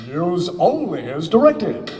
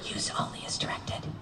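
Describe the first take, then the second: First: It is said in a booming announcer voice. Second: It is said in a whisper.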